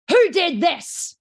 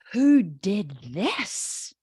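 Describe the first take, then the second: First: Loud, high, drawn-out angry demand; threatening parent demanding the culprit; scary tone. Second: Slow, drawn-out "who did this", rising pleasantly; delighted parent asking slowly who did it; good tone. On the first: Controlling parents finding the drawn-on wall, scary angry tone. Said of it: "That's a scary tone". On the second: Artistic parents finding the child's wall drawing, slow approving tone. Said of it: "good tone or a bad tone". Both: Acted.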